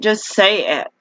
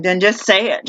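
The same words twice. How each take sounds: First: "Just say it" pushed higher, leaning on "Just"; emphatic repeat. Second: Said in the usual way. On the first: Real, not acted. Fed-up customer demanding the phone company be honest, emphatic. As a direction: hammer home "Just say it".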